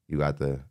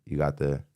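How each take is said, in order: Both takes have the same delivery.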